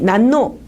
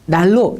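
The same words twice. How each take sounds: First: The middle sounds merge into a double N sound. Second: The middle sounds merge into a double L sound. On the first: The speaker calls it wrong. "만약에 어떤 친구가 이 난로 이렇게 얘기를 하면 여러분은 아마 웃을 거예요" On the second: The speaker calls it right. "르르로 발음하는 경향이 있죠. 그러다 보니까 여러분은 난로 이렇게 발음을 하는 거죠"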